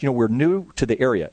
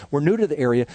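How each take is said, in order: First: Polite Southern lady's welcome; gracious Southern accent, lightly done. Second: A dry thought after nine months; dry inner mockery. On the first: Retold or imitated. Southern mom tells the pastor they're new, in a lightly done Southern accent. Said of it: "beautiful Southern accent". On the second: Pastor privately scoffs at the mom's claim, dry and wry. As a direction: repeat "We're new to the area" with wry disbelief. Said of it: "And I'm thinking".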